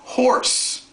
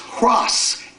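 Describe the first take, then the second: First: The r sound comes after the vowel. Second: The r sound comes before the vowel. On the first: This is the modern form. "it's now horse. Is the way we pronounce it" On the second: This is the old form. "Centuries ago, it was hros"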